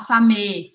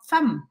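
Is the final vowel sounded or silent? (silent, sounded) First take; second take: sounded; silent. First: A vowel is sounded after the final m. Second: The word ends on the m sound. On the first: The speaker calls it wrong. "eu não vou falar famé" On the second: The speaker calls it right. "vou falar fam"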